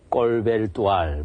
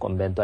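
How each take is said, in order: First: It is said with l sounds: kkolbeldual. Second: It is said with m and n: kkombendual. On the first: Some people find the name hard to say. The speaker calls it wrong. "이 발음이 어려워서 꼼벤두알이라고 못하고 뭐 꼴벨두알 뭐 이렇게 발음하는 사람도 있고" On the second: This is how the name is properly said. The speaker calls it right. "정확하게는 예, 꼼벤두알이라고 이렇게 이제 쓰고 발음을 꼼벤두알 이렇게 합니다"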